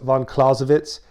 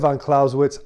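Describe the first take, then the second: First: The name is said with a European pronunciation. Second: The name is said with an American pronunciation. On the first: The speaker calls it right. "I know it's von Clausewitz" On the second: The speaker calls it wrong. "I said von Clausewitz"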